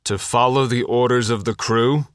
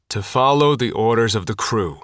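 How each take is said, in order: First: The voice rises at the end like a question. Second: The voice falls at the end like a statement.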